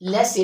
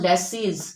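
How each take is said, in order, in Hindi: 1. यह शब्द स्वर पर खत्म होता है, z ध्वनि नहीं है। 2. यह शब्द साफ़ z ध्वनि के साथ खत्म होता है। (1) "it is लेसी फेयर" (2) "it is not लेसीज"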